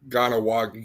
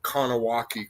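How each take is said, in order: First: The name begins with a soft G sound. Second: The name begins with a hard K sound. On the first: The speaker calls it right. "It's uh, Ganawagi" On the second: The speaker calls it wrong. "it's not Kanawaki"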